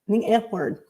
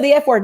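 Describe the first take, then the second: First: It is said slowly. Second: It is said quickly.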